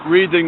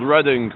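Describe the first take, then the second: First: It is said as the verb for reading books. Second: It is said as the town's name. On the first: It means looking at written words. "reading a book" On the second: It names a place. "the tongue called reading"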